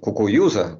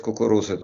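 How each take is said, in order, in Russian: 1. Средний согласный — мягкий звук, похожий на «й». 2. Средний согласный — чёткое раскатистое «р». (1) "а если ты говорил, как еврей, «кукуюза», там или как-то так" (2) "если ты мог сказать «кукуруза, иди»"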